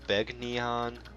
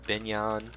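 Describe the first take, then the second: First: The G and N are sounded separately. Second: The G and N blend into one sound. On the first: "Some people have pronounced it" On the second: "confirmed that it is indeed Binyan. The G N sound uh, mixes together"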